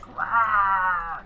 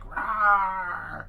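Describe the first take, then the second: First: Loud high roar, fully hammed; dinosaur voice. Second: Loud high roar again, just as big; dinosaur voice. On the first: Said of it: "I'll be all like". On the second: Pretend. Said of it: "I'll still be like".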